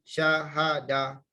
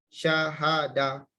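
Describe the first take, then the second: Both takes have the same delivery.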